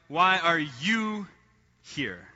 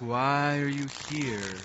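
First: It is asked in a pointed, accusing tone. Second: It is asked in a deep, philosophical tone.

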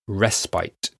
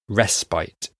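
First: It is said the British way, like 'rest bite'. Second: The same.

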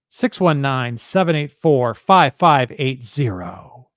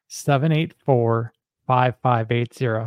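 First: It is said in a showy car-dealer voice. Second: It is said in a plain, ordinary voice.

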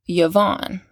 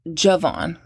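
First: The name begins with a 'y' sound. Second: The name begins with a 'j' sound.

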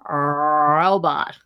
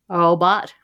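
First: The first R is exaggerated and distorted. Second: The first R is weak and incomplete. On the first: "distorting it by trying too hard. Robot. Kind of like that" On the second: "where they kind of have the R, but they don't quite have it"

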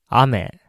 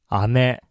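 First: It carries the pitch accent of the word 'rain'. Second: It carries the pitch accent of the word 'candy'. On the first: It means rain falling from the sky. "雨が天気が悪い日に空から降ってくる水のことで" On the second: It means sweet candy. "雨が甘いキャンディーのことです"

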